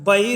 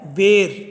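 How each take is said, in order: First: The first vowel is an open 'ai' sound. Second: The first vowel is a closer 'e' sound. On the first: This is the standard Hindi form. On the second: This is the Khari Boli dialect form.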